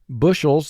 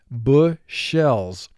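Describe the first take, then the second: First: The word is said in a normal way. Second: The word is said with exaggerated, careful sounds.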